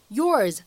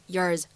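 First: Said in the usual way. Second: "yours" reduced to "yers", lower; low, weakened "yours", like "yers"; weak form of YOURS. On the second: Shown as a demonstration. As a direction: say "yours" unstressed with a short, reduced vowel. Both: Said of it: "此处呢，我们可以弱读".

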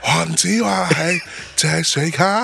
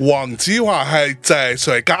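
First: Lightly imitated slow singer voice; [name] impression. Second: Lightly voiced slow comedian line; Wong Tsz-wah impression. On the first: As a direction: drawl it slowly like a pop star. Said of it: "你用郭富城学，说这句话". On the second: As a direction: say it slow and low like a stand-up. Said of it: "你那天说黄子华那什么来着？".

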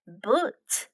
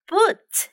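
First: "Boot" lower and softer, rising; soft repeat. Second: "Boot" said much higher, falling; high model word. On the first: Teacher repeats "Boot" for kids, softly. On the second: Teacher presents "Boot" to kids, high. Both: Shown as a demonstration. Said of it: "let's practice some useful expressions".

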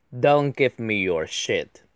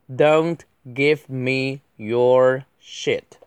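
First: Said in the usual way. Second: Very slow, every word separated; drawn-out word-by-word delivery; slow model reading. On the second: Shown as a demonstration. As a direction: space out each word for learners. Slow model reading, then faster repeat.

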